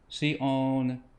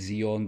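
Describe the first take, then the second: First: The word begins with an s sound. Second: The word begins with a z sound. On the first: The speaker calls it right. "but I prefer Sion here" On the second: The speaker calls it wrong. "Some versions might have you sing Zion"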